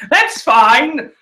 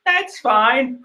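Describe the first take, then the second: First: High, loud, strained insistence; feigned acceptance. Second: Strained acceptance. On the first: Fan denied a dream fight, loudly feigning acceptance. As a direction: insist loudly while clearly disappointed. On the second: Fan swallowing disappointment, high and restrained. Repeats the denial more softly. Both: Real, not acted.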